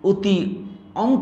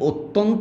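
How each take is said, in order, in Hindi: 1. दोनों हिस्से अलग-अलग, बिना जोड़े बोले जाते हैं। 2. दोनों हिस्से मिलकर एक सहज शब्द बन जाते हैं।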